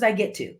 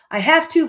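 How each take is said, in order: First: "get" said at usual pitch, lighter, in "I get to"; stress on GET. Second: "have" pushed high and loud in "I have to"; stress on HAVE. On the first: Coach offering the better statement, easy stress on "get". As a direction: set "get" down easily, without strain. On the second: Coach contrasting two statements, heavy stress on "have". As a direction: lean hard and high on "have". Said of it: "when you emphasize things". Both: Shown as a demonstration.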